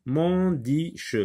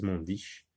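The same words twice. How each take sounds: First: "Mondiche" sounded out as a questioning try, rising at the end; teacher testing a made-up word "Mondiche"; trying a wrong order. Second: "mondiche" said softer and lower as a dismissed non-word; teacher softly dismissing "mondiche" as wrong; rejected word. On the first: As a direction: test "Mondiche" aloud with a hopeful rise. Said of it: "on va essayer dans cet ordre". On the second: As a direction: drop "mondiche" quietly as not a real word. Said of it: "Ce n'est pas un mot". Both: Shown as a demonstration.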